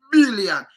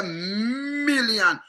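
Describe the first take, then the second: First: BILLION quick and loud from a hard B; punched B. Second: MILLION with a very long hummed M; drawn-out M. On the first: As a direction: burst straight out with the B of BILLION. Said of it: "you cannot hear". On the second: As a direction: hum the M, then release MILLION slowly. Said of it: "you draw". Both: Shown as a demonstration.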